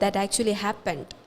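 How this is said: It is said with surprised excitement. The speaker is expressing strong emotion about it. "I am putting an exclamation. Oh my god"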